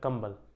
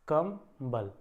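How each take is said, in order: First: It is said as one word, no break. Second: There is a brief break between its halves. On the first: It means a blanket. "एक साथ बोलोगे कंबल" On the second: It means the strength is low. "म और ब जो दो ध्वनियां है ना इनके मध्य में थोड़ा सा अगर विराम ले लिया"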